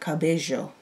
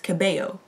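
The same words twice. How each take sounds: First: The double L is not said as a Y sound. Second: The double L is said as a Y sound. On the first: This is how it is said in Spain or parts of South America. "certain areas of South America or to Spain" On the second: This is how it is said in Mexico. "If you're like in Mexico, it's a Y"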